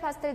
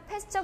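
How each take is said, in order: First: The name ends with an 'l' sound. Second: The name ends with a 'ch' sound. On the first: This is the usual Korean reading of the name. "한글로 할 때는 파스텔" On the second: This is another accepted reading of the name. "패스처 그리기도 하죠"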